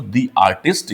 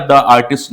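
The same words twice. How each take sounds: First: "the" said as a long "dee" before artist, slow; right "dee". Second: "The" said as a short "duh" before artist; wrong "the". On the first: Teacher showing students the correct "dee artist", slowly. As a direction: draw out "the" as "dee" before the vowel. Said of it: "ही बोलेंगे". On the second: Teacher showing students the wrong "duh artist". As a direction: clip "The" to a quick "duh". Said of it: "नहीं बोलेंगे". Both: Shown as a demonstration.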